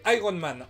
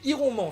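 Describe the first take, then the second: First: It is said in a roughly English-like way. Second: It is read literally with French spelling sounds. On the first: This is how most people in France say it. "prononcé Iron Man en France" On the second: This is how an elderly relative says it. "Iron Man chez ma grand-mère"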